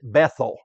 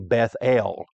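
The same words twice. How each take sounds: First: It is run together as one word. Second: It is said as two separate parts. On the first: This is the usual everyday way to say it. "We would pronounce it Bethel" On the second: The name is made of two words meaning house of God. "a correct pronunciation, it would be Bethel, uh, because it's really two words"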